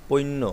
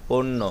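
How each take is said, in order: Both takes have the same delivery.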